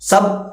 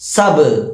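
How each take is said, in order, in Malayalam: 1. അവസാന b bounce ഇല്ലാതെ, പരന്നാണ് പറയുന്നത്. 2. അവസാന b വ്യക്തമായ ബൗൺസോടെയാണ് പുറത്തുവിടുന്നത്. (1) "സബ് എന്നല്ല" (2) "മറിച്ച് സബ് ഇങ്ങനെ ഉച്ചരിക്കണം"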